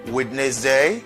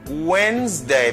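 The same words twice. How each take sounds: First: The middle D sound is pronounced. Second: The middle D sound is silent. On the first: The speaker calls it wrong. "Is it like this? Wednesday? No" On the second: The speaker calls it right. "Because D is silent"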